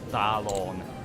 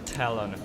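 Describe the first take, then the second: First: It is said like an unfamiliar, exotic name. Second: It is said like the English word for claw. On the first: The speaker calls it wrong. "not Talon ... I thought ... it's some exotic name" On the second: The speaker calls it right. "It's actually Talon, ... it's just like the little claw that birds have"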